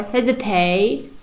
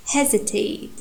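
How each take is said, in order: First: "hesitate" with stress on final TATE, rising; wrong stress demo. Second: "Hesitate" with strong HE, falling after it; stress on first syllable. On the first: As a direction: push the weight onto the end of "hesitate". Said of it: "We cannot pronounce hesitate like". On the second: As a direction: put the weight on the opening of "Hesitate". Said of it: "you can feel this strong syllable". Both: Shown as a demonstration.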